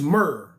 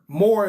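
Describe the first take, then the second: First: The vowel sounds like the one in 'fur'. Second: The vowel sounds like the one in 'more'. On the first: The speaker calls it right. "a more appropriate enunciation is Mur" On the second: The speaker calls it wrong. "a mispronunciation of the name"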